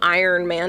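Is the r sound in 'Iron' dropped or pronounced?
pronounced. The r sound in 'Iron' is clearly pronounced. "It's not"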